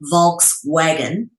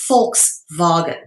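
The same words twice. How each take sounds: First: The word begins with a V sound. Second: The word begins with an F sound. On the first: The speaker calls it wrong. "most people would say Volkswagen" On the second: The speaker calls it right. "but it's actually Volkswagen"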